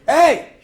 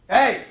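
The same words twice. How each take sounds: First: Hey yelled much louder and higher; full-voice attention call; big shout. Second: A sharp call of hey, louder; short shouted hey to cut through noise; attention-grabbing shout. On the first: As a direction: bellow hey to burst through the noise. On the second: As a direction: call out to grab the room. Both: Shown as a demonstration. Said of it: "That's how you get attention".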